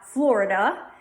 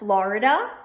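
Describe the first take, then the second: First: The first vowel sounds like 'or' before the R. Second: The first vowel sounds like 'ah' before the R. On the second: "put an A in front of the R"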